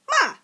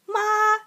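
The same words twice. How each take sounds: First: It is said with the fourth tone. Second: It is said with the first tone. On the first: "It's four" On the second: "now the first tone is ma"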